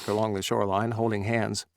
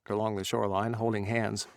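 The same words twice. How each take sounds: No difference in how they are said.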